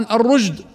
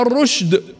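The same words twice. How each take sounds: First: The consonant after the r is a voiced j. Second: The consonant after the r is a voiceless sh. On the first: The speaker calls it wrong. "فيحولها جيما وتقرأ خطأ" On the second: The speaker calls it right. "أو الشين في"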